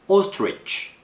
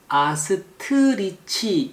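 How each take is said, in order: First: The t and r are blended together. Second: The t and r are split by a vowel. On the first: The speaker calls it right. "tr 발음은 한 번에 발음하는 거예요" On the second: The speaker calls it wrong. "아스트리치 이렇게 발음하는 경우가 있는데"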